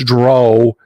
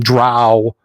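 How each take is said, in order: First: The vowel rhymes with go. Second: The vowel rhymes with cow. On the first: "it's Dro" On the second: "They're not cows"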